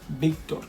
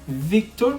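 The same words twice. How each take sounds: First: It begins with a b-like sound. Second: It begins with a buzzing v sound. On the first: The speaker calls it right. "We pronounce it Victor" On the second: The speaker calls it wrong. "you will pronounce it Victor, but no"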